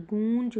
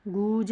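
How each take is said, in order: First: गूंज as "goonj"; corrected nasal form. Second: गूंज as "gooj", no n; wrong form, no nasal. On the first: Teacher pointing out chandrabindu, गूंज with nasal. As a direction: sound the nasal before ज in गूंज. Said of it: "चंद्र बिंदु आ रहा है". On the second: Teacher showing students the error, गूंज without nasal. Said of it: "गूंज नहीं". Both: Shown as a demonstration.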